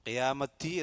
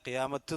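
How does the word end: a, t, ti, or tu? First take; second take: ti; t. First: The word ends with a ti sound. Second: The word ends with a bare t sound. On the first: "എന്നല്ല" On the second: "എന്നല്ല"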